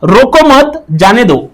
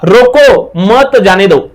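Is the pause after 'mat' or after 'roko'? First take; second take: after mat; after roko. First: There is a pause right after mat. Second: There is a pause right after roko.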